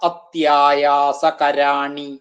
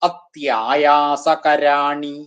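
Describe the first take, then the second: Both takes have the same delivery.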